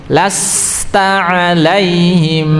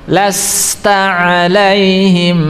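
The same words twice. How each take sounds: Both takes have the same delivery.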